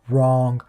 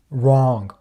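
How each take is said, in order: Both takes have the same delivery.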